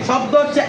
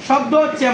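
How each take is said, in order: The two takes are said the same way.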